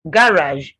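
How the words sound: It is said in a British accent. "for British"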